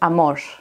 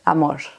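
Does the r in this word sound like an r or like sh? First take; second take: sh; sh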